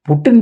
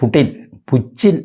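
First: The name is said with a 't' sound. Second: The name is said with a 'ch' sound. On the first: "നമ്മുടെ ആവശ്യത്തിന് പുട്ട് തന്നെ എന്ന് പറയാം" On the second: "അങ്ങനെയാണ് പോലും അതിൻ്റെ ഉച്ചാരണം"

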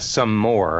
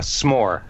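First: It is said as two separate syllables. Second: It is said as one contracted syllable. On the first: The speaker calls it wrong. "not a some more" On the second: The speaker calls it right. "Like a s'more"

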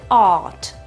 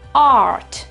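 First: The R after the vowel is not pronounced. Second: The R after the vowel is clearly pronounced. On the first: "versione britannica, vedete che la R non c'è più" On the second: "Versione americana"

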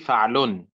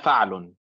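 First: The final L sound is stressed. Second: The final L sound is not stressed. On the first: The speaker calls it right. "انبر على اللام يا دانا، قولي فعل" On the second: The speaker calls it wrong. "أنت تقولين فعل"

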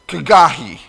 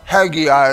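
First: It begins with a throaty ch sound. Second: It begins with a plain h sound.

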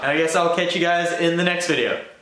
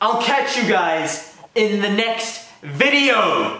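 First: It is said with little passion or energy. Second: It is said with lots of passion and energy.

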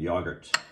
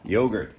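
First: It is said in an English accent. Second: It is said in an American accent.

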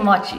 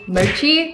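First: The o is a pure Japanese-style vowel. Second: The o is an English-style gliding vowel. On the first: The speaker calls it right. "but it's actually mochi. Because in Japanese, O is an O sound" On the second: The speaker calls it wrong. "all my LA friends called mochi mochi ... That's an English pronunciation"

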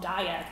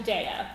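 First: The first syllable sounds like 'die'. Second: The first syllable sounds like 'day'. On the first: The speaker calls it wrong. "because then it's like, oh, you're going to eat it and die" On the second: The speaker calls it right. "But it's actually Daiya"

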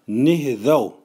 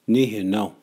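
First: It is said in the Cree TH dialect. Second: It is said in the Cree N dialect.

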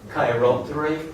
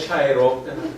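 First: The word begins with a k sound. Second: The word begins with a ch sound. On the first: "англійці і американці вимовляють його як кей" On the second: "Не чайроптера"

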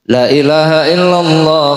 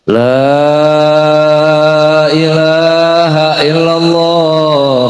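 First: The long vowel after the l is cut short. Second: The double l and long vowel are both held. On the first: The speaker calls it wrong. "lam yang seharusnya dibaca mad, dia baca pendek" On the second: The speaker calls it right. "Itu yang benar"

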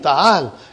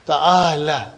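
First: The word ends on a bare consonant. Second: The word ends with a final vowel sound. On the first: The speaker calls it right. "you will give a sukoon" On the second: The speaker calls it wrong. "But you will never say ta'ala"

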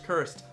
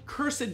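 First: The word is said with one syllable. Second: The word is said with two syllables.

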